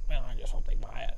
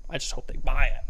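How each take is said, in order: First: Anxious muttering. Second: Said in the usual way. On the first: Pretend. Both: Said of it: "you're like".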